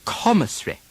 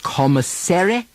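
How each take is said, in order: First: Commissary as CO-mi-ssry, vowel dropped; British pronunciation. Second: Commissary with a full American -sary ending; wrong American version. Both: Shown as a demonstration. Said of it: "Not commissary".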